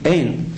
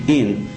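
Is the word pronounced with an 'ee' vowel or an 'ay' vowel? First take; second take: ay; ee. First: The vowel is an 'ay' sound, like ein. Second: The vowel is an 'ee' sound, like in. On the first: There is no. "עם צעירה" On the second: There is. "אין עם חיריק"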